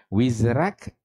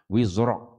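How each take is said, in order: First: The r sound is light and thin. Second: The r sound is heavy and thick. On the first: "Ringan, nipis" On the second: "Wizrak itu kita baca"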